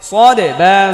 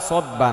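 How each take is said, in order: First: The first word ends with an added vowel. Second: The first word ends on a consonant. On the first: The speaker calls it right. "এটা সদে" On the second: The speaker calls it wrong. "সদ বা না"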